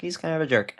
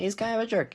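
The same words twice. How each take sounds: First: Said in the usual way. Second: Much higher, mocking jerk line; mocking squeak. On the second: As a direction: squeak it out as a jab. Mocking jab at Chevy.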